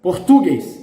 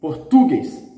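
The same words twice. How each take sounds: First: The stress is on the second-to-last syllable. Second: The same.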